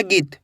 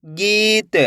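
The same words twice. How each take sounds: First: गीत with a short इ, like गित; don't hold the ई in गीत, close quickly on त; vowel cut short. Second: गीत with a long, stretched ई; drawn-out vowel. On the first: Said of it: "ऐसे नहीं पढ़ना". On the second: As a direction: hold the ई in गीत before closing on त. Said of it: "तो खींच के पढ़ेंगे". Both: Shown as a demonstration.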